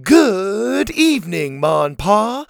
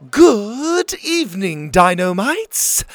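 First: Mild sing-song group reply, slow and higher; a touch of a chanting crowd; kids shouting back. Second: High, slow greeting to the whole camp; lightly voiced camp leader calling out. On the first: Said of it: "the kids shouted back". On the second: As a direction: welcome the crowd like a grand hostess. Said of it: "Ma called out". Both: A narrator's reading.

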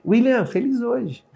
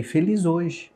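First: High, slow, cheery "William, feliz hoje."; sing-song cheer. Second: Said in the usual way. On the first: Shown as a demonstration. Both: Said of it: "Escreve aí".

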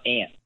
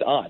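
First: "aunt" said like the insect ant; aunt, the rejected way. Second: "aunt" with an open AH vowel, like "ahnt"; aunt, the preferred way. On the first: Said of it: "it's always aunt". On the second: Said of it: "It's not aunt". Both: Shown as a demonstration.

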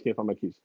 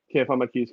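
First: Frustrated mutter. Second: Said in the usual way. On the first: Retold or imitated. Retelling the search for his keys, a soft frustrated mutter. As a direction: drop it low and soft, muttering.

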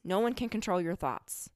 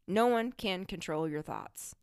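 First: Said in the usual way. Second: Slow, with weight on No; repeated slowly for emphasis, No leaned on; slow emphatic repeat. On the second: Shown as a demonstration. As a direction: let it sink in, each word deliberate. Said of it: "repeated slower".

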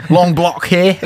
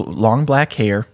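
First: "block" said in place of black, high and laughing; mispronounced black. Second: Said in the usual way. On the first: Shown as a demonstration. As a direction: say "block" with an open British-style vowel, pitched up. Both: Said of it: "I almost said block".

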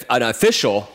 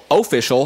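First: Said in the usual way. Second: Official with a Canadian oh sound, oh-fish-ul; jokey Canadian accent on official. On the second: Pretend. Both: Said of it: "this is my Canadian accent".

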